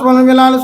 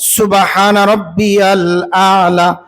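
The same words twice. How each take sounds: First: The phrase is pronounced sloppily and hurriedly. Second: The phrase is pronounced carefully and clearly. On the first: The meaning of the words gets changed. The speaker calls it wrong. "উচ্চারণ বেঠিক হয়ে যায়" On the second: It properly praises God's purity. The speaker calls it right. "সুবহান শব্দটা সুন্দর করে পড়া"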